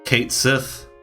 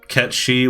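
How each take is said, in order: First: The name sounds like 'Kate Sith'. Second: The name sounds like 'Ketchee'. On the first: "I'm gonna call him Kate Sith" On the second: "which everybody says is the correct pronunciation"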